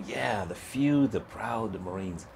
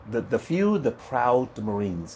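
First: Softer and slow, savoring each word of "the few, the proud, the Marines"; a kid quietly reciting the slogan he dreams of; dreamy, awed slogan. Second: Commercial slogan. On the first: Young recruit to himself, hushed and slow, in awe. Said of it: "And I go". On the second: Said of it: "And that was a commercial". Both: Retold or imitated.

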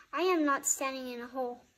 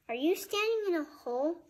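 First: Firm, quick denial with weight on AM NOT; louder stress on AM, a firm statement; emphatic denial. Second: A question lifted high on STANDING. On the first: Cork answers Fuzz's question, emphatic denial. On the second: Fuzz puzzles over Cork's height, questioning. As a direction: Fuzz asks Cork about standing, high questioning tune on STANDING. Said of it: "Fuzz asked". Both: A narrator's reading.

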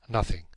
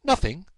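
First: Said in the usual way. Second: NOTHING thrown back high as a question; incredulous echo. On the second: Acted. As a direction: echo "Nothing" in higher-pitched disbelief. Holmes echoes the answer, incredulous.

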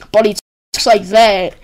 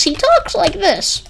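First: Said in the usual way. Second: High, slow mimicry of a light voice. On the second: Describing old boss's voice to viewers, high light voice. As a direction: imitate him slowly, pitched way up. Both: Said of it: "really, really light voice".

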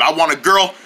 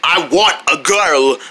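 First: Said in the usual way. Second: Put-on "I want a girl" slowed and stretched; emphatic declaration. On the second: Telling the guys his terms, slow emphatic "I want a girl". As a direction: draw out "want a girl" firmly.

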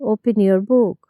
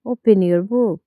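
No difference in how they are said.

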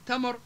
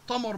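First: Said in the usual way. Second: تمر as tamar with heavy backed t; emphatic t. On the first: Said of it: "بدل من تمر". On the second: Shown as a demonstration. Teacher showing the shift, تمر with emphatic t. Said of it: "حول التاء إلى طاء".

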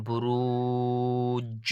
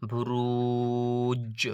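First: বুরুজ stretched very slowly, the final জ bounced; বুরুজ chanted slow, the জ struck apart; slow Quranic recitation. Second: বুরুজ drawn out slowly with a jolted final জ; বুরুজ chanted, its জ knocked apart; slow Quranic recitation. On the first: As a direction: give বুরুজ a long drawn ু and a jolted final জ. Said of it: "যেমন". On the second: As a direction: recite বুরুজ long and slow, then strike the জ. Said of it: "এইভাবে উচ্চারণ করতে হবে সবগুলো". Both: Shown as a demonstration.

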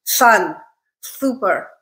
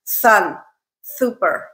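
First: Slushy s in Sun and super, air off the sides; slushy, mushy s in super; lateral lisp. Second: S said as th, Sun and super with tongue between teeth; frontal lisp. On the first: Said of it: "kind of slushy and mushy". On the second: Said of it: "This is what it sounds like". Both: Shown as a demonstration.

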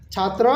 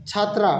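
First: "ছাত্র" ending in a short rounded vowel; short final vowel on "ছাত্র", chhaatro; masculine Nepali form. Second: "ছাত্রা" ending in open "aa"; chhaat-raa, open final vowel on "ছাত্রা"; feminine Nepali form. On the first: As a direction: keep the end of "ছাত্র" short, no "aa". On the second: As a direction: open up the last syllable of "ছাত্রা". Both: Shown as a demonstration. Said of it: "একটু উনিশ বিশ আছে".

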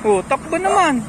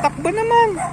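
First: Higher, cooing dog-talk voice; squeaky praising a dog. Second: Very high squeaky dog-talk; squeaky praising a dog. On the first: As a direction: coo at the dogs playfully. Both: Real, not acted. Cooing at dogs running.

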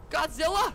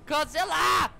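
First: High, loud call with rising end; raised-voice monster check, rising at the end; calling out, questioning. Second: High, loud shout of GODZILLA, falling at the end; full shout, no question in it; shouted call. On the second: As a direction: yell the monster's name outright. Calling out to a monster. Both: Pretend.

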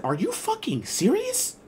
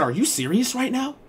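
First: High, slow, disbelieving quote; incredulous instructor. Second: High, incredulous quote; disbelieving instructor. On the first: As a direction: squeak it out in mock disbelief. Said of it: "She said". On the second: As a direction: pitch it up like she can't believe it. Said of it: "she said". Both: Retold or imitated.

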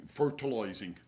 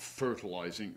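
First: Put-on slipping into an English country gardener accent; a hint of rural English accent. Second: Said in the usual way. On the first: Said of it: "went to be like an English country gardener".

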